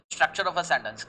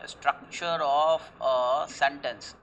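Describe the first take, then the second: First: Said in the usual way. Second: Very slow, word by word, like dictating a definition; slow dictation. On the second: Shown as a demonstration. Teacher dictating a definition to class, very slow. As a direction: spell it out slowly for students to write down. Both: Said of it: "Syntax means what?".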